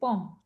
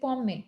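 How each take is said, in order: First: The word ends on the 'm' sound. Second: The word ends with an added 'ay' vowel. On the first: The speaker calls it right. "say pom ... the pom is nothing" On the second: The speaker calls it wrong. "Don't say pomme, ... the pomme sounds like E X on aigu"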